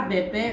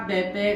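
No difference in how they are said.

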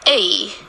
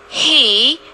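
First: The word has no h sound, only the vowel. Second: The word starts with an h sound. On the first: This is the weak form. "but the weak form is A, just the long E" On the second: This is the strong form. "the strong form is he, H long A"

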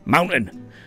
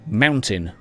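First: The middle T sound is dropped. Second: The middle T sound is pronounced.

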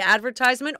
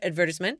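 First: It is said in an American accent. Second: It is said in a British accent.

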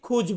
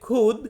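First: The word ends with a j sound. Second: The word ends with a d sound. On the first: The speaker calls it wrong. "অনেক লোককে আমি বলতে দেখেছি খুজ বলে" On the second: The speaker calls it right. "সঠিক উচ্চারণটা হবে খুদ"

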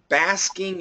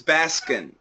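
First: The word ends with a full ng sound. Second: The word ends with a plain n sound. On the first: The speaker calls it right. "I want that ing. I want a little bit more ing" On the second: The speaker calls it wrong. "what I'm hearing from you is Baskin, and you know, like the ice cream store"

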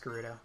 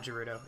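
First: The word begins with a hard G sound. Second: The word begins with a J sound. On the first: The speaker calls it right. "it's Gerudo. ... It's a G" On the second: The speaker calls it wrong. "It's not Gerudo, ... It's not a J"

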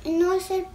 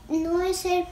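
No difference in how they are said.

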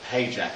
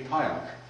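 First: The name is said like English 'paycheck'. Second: The name is said with Polish sounds. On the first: "we've always used this Paycheck" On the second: "the true pronunciation of it actually would be Pająk"

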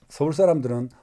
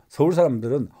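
The two takes are said the same way.

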